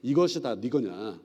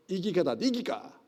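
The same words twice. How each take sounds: First: Said in the usual way. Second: Broad Gyeongsang accent, quick and clipped-sounding; Gyeongsang dialect. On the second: Shown as a demonstration. Pastor showing the class old dialect, Gyeongsang accent. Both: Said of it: "경상도 본토 발음이에요".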